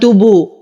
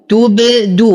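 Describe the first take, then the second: First: The b blends into the vowel without a bounce. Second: The b is bounced clearly and the d is heard. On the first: The speaker calls it wrong. "ولا أقول تبو" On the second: The speaker calls it right. "وأقلقل الباء وأرجع عن الضم فيها فأقول تبدو"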